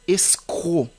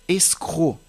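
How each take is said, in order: Both takes have the same delivery.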